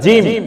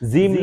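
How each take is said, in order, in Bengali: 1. অক্ষরের নামটা শক্ত আর টানটান করে বলা হচ্ছে। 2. অক্ষরের নামটা নরম আর আলগাভাবে বলা হচ্ছে। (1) "একটু শক্ত করে জিম" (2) "জিম না"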